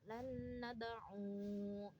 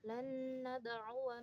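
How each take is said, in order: First: The word ends on 'u' without the 'wa'. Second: The word ends with a short 'wa' syllable. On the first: The reader stops at this word. "Ketika waqaf" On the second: The reader continues on without stopping. "Ketika wasol"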